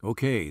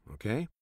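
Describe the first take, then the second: First: "Okay" louder, falling firmly at the end; agreeing reply. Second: "okay" rising at the end as a question. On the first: Men replying to the missionary as a chorus, agreeing. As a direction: answer with a loud, settled "Okay". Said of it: "they replied as a chorus". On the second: Missionary asking the men to agree to his terms, questioning. Speaker lays a condition, seeking agreement. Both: A narrator's reading.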